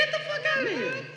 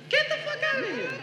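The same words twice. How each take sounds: The two takes are said the same way.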